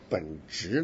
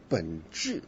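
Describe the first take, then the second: First: It uses the Taiwanese Mandarin pronunciation. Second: It uses the mainland Mandarin pronunciation. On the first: "咱们台湾来的人都说本质" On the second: "你们为什么老是说本质"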